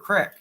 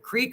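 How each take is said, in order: First: The vowel is a short 'ih' sound. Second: The vowel is a long 'ee' sound. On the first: This is the regional Kentucky form. "in Kentucky, we call them cricks" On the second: This is the standard form used elsewhere. "We still don't say creek"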